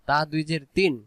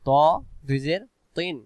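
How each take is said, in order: First: The sound is spread, with a wide mouth. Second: The sound is rounded and heavy. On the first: The speaker calls it wrong. "মুখটা যদি চেওড়া হয় তাহলে সেখানে উচ্চারণ হবে তা" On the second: The speaker calls it right. "মুখটা গোল করে"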